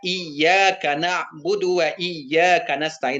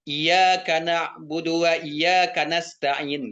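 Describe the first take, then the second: First: The y sound in iyyaka is held and doubled. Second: The y sound in iyyaka is short and single. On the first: Only to God we worship and ask help. The speaker calls it right. "Seharusnya kan dibaca" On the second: Only to the light we worship and ask help. The speaker calls it wrong. "tidak dibacanya tasydid"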